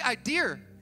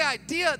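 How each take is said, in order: First: The word ends with an added R sound. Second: The word ends in a plain vowel, no R. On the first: "they add an R to it" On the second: "They don't say idea"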